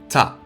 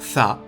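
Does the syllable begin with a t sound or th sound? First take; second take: t sound; th sound. First: The syllable begins with a plain t sound. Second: The syllable begins with an English th sound. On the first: The speaker calls it wrong. "et non ta" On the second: The speaker calls it right. "avec un th à l'anglaise"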